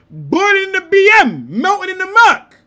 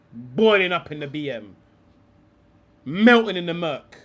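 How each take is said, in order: First: Chanted, Boiling in the B M, much louder and higher; loud, gleeful mock chant at the pundit. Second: Said in the usual way. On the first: Real, not acted. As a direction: belt the chant out as a gleeful tease.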